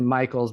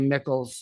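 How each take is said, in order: First: The first syllable sounds like 'ike'. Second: The first syllable sounds like 'ick'. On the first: This is how the name is actually said. The speaker calls it right. "but it's actually Michaels" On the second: The name is read the way it is spelled. The speaker calls it wrong. "it's kind of that same thing with like Charity Mickles"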